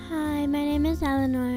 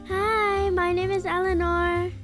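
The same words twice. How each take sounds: First: It is said in a calm, low-key tone. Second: It is said in an excited, lively tone.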